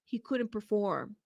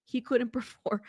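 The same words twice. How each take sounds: First: Said in the usual way. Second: Laughing through it. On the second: Real, not acted. Rereads it, breaks into laughter.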